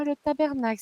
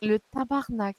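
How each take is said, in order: First: "tabernacle" said the standard French way, with ER in the middle; standard French pronunciation. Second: "tabarnak" said the Québécois way, with AR in the middle; Québécois pronunciation. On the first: Québécoise quoting the pastor's mistake, "tabernacle" in standard French with ER. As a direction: keep ER and the full -acle ending in "tabernacle". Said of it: "Le tabarnak, ce n'est pas".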